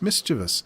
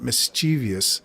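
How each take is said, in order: First: The stress is on the first syllable. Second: The stress is on the second syllable. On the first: The speaker calls it right. "It's mischievous" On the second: The speaker calls it wrong. "you put the wrong emphasis on the wrong syllable and you get mischievous"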